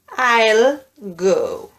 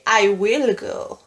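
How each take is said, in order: First: Will is contracted and joined onto I. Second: Will is said in full as a separate word. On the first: "they just say" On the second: "native speakers don't always say"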